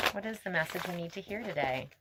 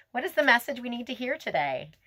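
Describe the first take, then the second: First: Softer, faster murmured repeat. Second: Lifted, higher appeal to the fairies; asking the spirits. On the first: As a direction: tuck the question in quietly. Repeats question to spirits softly. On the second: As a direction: call the question up to the spirits. Asks spirits for card message. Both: Real, not acted.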